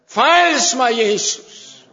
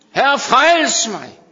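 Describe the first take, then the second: First: Loud, urgent plea to Jesus; desperate cry to Jesus. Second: Loud, slow cry of Herre, frels mig; preacher crying the plea. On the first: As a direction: call out to be saved. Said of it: "der råbte jeg til Jesus". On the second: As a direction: cry out slowly for rescue. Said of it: "plea repeated in preaching". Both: Retold or imitated.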